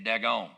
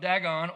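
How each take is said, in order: First: It is said with a Southern twist, like doggone. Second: It is said in the speaker's plain reading voice.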